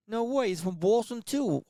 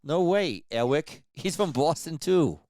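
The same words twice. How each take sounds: First: Put-on slow mumbled Boston accent, pitched high; Boston accent like marbles in the mouth. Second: Put-on slow, louder, higher mumbled Boston accent; Boston voice like marbles in the mouth. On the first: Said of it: "like, marbles in my mouth". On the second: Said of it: "Does that sound like him?".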